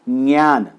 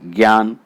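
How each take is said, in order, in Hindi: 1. यह j ध्वनि से शुरू होता है, जो ny के साथ जुड़ी होती है। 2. यह g ध्वनि से शुरू होता है, जो y के साथ जुड़ी होती है। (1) "तो इसे क्या बोलना चाहिए? ज्ञान" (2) "अब लोग इसे बोलते हैं ज्ञान"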